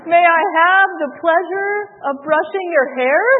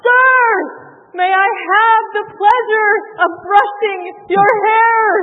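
First: It is said quietly. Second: It is said loudly.

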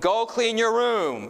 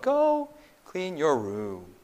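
First: The sentence is said at a raised, louder volume. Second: The sentence is said at a normal, flat volume. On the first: It sounds more serious. "If you can increase the volume" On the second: It sounds cold and emotionless. "it's monotone"

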